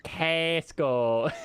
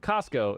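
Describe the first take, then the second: First: "Costco" with a wide drawn-out "a", kasko; exaggerated American pronunciation. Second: Said in the usual way. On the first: Kyoto guest mimicking Americans, "Costco" as exaggerated kasko. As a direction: stretch "Costco" into kaa-sko, rising. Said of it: "And she's like". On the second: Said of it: "the way that we say Costco".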